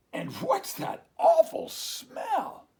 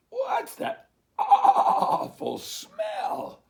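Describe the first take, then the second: First: High, slow, loud squawk of disgust; duck's disgusted cry. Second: High, very slow, loud laughing bleat; bleating sheep. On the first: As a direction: choke out your disgust. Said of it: "Dog said". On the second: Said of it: "they bleated". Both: Acted.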